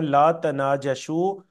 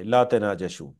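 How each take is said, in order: First: "لا تناجشوا" spelled out slowly, each syllable clear, rising at the end; careful Arabic recitation. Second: Said in the usual way. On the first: Shown as a demonstration. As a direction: say "لا تناجشوا" slowly and deliberately, lifting the last syllable. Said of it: "جو حدیث کے الفاظ ہیں". ("لا تناجشوا" آہستہ آہستہ، ہر حرف واضح، آخر میں آواز اٹھا کر) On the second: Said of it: "اس سے کیا مراد ہے؟".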